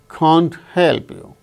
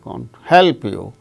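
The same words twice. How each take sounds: First: Both 'can't' and 'help' are stressed. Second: The word 'can't' is unstressed; 'help' is stressed. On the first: "the speaker wanted to stress can't also" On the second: "then afraid and help, only two words are stressed"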